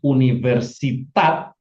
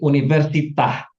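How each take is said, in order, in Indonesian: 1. Kata ini berakhir dengan bunyi t. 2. Kata ini berakhir dengan bunyi h. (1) "huruf he-nya diganti menjadi taf" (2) "sementara di sini universitah"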